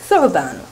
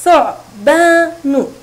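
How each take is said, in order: First: Said in the usual way. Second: ثعبان slow and loud in three syllables; split into syllables. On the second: Shown as a demonstration. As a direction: say ثعبان in three separate, drawn-out beats. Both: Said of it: "تتكون الكلمة من ثلاثة مقاطع".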